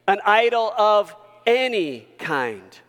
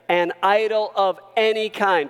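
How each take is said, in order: First: The word 'any' is strongly emphasized. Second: The word 'any' gets no special emphasis.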